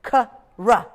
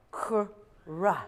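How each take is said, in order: First: Ka, then ra, said slowly apart; split sounds. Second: Kra as one blended sound. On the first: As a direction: pull the two sounds apart. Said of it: "Right now they're far away". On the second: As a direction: push the two sounds together into one. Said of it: "take a step together". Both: Shown as a demonstration.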